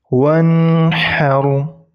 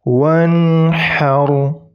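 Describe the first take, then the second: No difference in how they are said.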